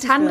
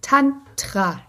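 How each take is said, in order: First: The consonant after the n is a soft d. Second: The consonant after the n is a hard t. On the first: The speaker calls it wrong. "es ist nicht Tandra" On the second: The speaker calls it right. "Es ist Tantra"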